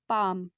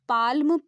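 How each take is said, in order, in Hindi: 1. इस शब्द में L की आवाज़ नहीं है। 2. इस शब्द में L की आवाज़ है। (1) "लेकिन हम इसे क्या प्रोनाउंस कर रहे हैं" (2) "अगर हम पाल्म प्रोनाउंस करते तब हम इसमें एल लगाते"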